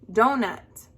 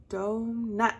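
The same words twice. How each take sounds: First: Said in the usual way. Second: Donut split as DO, pause, NUT; broken into syllables. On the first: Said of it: "The next one". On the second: Shown as a demonstration. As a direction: say donut slowly in two beats. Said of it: "break up the word".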